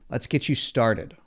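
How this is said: The voice falls at the end. The speaker sounds certain about the commitment. The speaker calls it right.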